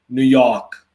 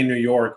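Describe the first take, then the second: First: It is said in a New York accent. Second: It is said in a plain, neutral accent.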